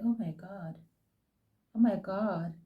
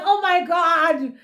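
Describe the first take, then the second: First: Breathy near-whisper, much softer, as if stunned; hushed disbelief at the TV. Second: Higher, louder, slow and laughing through it; delighted laughing oh my God; laughing squeal. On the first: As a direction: barely say it under your breath. Stunned by Andile on TV. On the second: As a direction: giggle the words out in delight. Giggling at Andile's comeback. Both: Retold or imitated.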